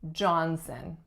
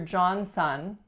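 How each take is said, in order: First: The second syllable has a weak schwa vowel. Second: The second syllable has a full vowel like son. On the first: The speaker calls it right. "We reduce that second syllable to schwa" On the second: The speaker calls it wrong. "But we do not say"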